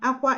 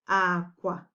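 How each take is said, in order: First: It has the tone pattern of the word crying. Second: It has the tone pattern of the word bed. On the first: The word means crying. "Aqua is crying" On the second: The word means bed. "aqua, bed"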